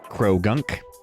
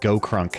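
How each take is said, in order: First: The name begins with a 'cro' sound. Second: The name begins with a 'go' sound. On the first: The speaker calls it right. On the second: The speaker calls it wrong.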